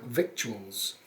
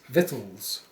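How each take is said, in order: First: A k sound is heard before the t. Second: No k sound is heard before the t. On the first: The speaker calls it wrong. "It looks like victuals" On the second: The speaker calls it right. "but it's victuals"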